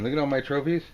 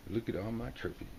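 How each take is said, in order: First: Louder, proud showing off; louder smug boast. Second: Quiet smug murmur of the trophy man; softly pleased with himself; smug boast. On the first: Smug card figure showing off his trophies, louder. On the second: Smug card figure admiring his trophies, murmured softly. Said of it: "This guy looks pretty smug". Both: Acted.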